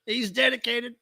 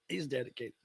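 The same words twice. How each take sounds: First: Said in the usual way. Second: He's dedicated, repeated much softer and lower; soft echoed He's dedicated; murmured echo. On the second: Shown as a demonstration. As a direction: murmur He's dedicated back under your breath.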